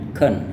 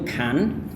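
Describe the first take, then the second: First: The word is said reduced with a short vowel. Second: The word is said fully with a long vowel. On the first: "Anda bisa singkatkan dengan hanya can" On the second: "itu sangat panjang"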